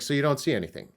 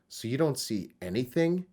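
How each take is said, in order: First: The word 'anything' carries no special emphasis. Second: The word 'anything' carries strong emphasis. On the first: "originally it's just like" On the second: "I italicized anything... they should emphasize that word"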